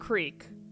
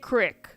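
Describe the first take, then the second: First: It is said with a standard pronunciation. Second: It is said with a regional Ohio pronunciation. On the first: This is the word they mean. "When they mean creek" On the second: This is how locals say it. "They say creek"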